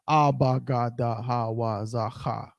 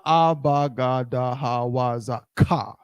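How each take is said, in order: First: The final syllable begins with an h sound. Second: The final syllable begins with a k sound. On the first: The speaker calls it right. "that's how it's pronounced" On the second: The speaker calls it wrong. "it's not"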